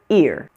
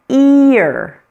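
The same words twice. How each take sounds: First: The word is said quickly, nearly one syllable. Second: The word is said slowly, almost two syllables. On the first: "A little faster" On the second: "slow it down"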